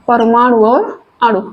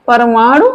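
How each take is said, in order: First: Slow, each word परमाणु और अणु drawn out; slow teaching emphasis. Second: Said in the usual way. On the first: Shown as a demonstration. Teacher to students naming the Hindi terms, slow and deliberate. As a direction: lay out परमाणु और अणु slowly for the class.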